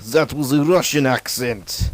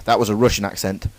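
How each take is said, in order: First: Slow, hammed-up Russian accent. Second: Said in the usual way. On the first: Shown as a demonstration. Student announcing his own impression, still in a Russian accent. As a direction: keep up the comic Russian accent, drawn out.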